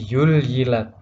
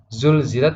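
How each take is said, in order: First: The first consonant is a y sound. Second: The first consonant is a z sound. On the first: The speaker calls it wrong. "huruf za menjadi ya" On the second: The speaker calls it right. "huruf za"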